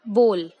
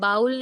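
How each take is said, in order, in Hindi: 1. स्वर 'go' के 'o' की तरह बोला जाता है। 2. स्वर 'cow' के 'ow' की तरह फिसलता है। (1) "आई रिपीट" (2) "हम इसे बाउल नहीं कहते"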